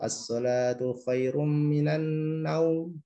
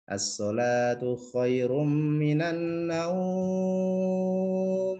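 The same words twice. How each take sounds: First: The vowel in the last word is short. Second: The vowel in the last word is drawn out long. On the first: The speaker calls it wrong. "pendek gitu" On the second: The speaker calls it right. "kalau dalam tajwid ya itu panjang sebetulnya"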